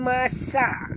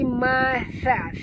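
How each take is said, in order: First: The second consonant is a plain s sound. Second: The second consonant has the tongue tip out. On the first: The speaker calls it wrong. "bukan masa" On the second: The speaker calls it right. "keluarkan hujung lidah sikit"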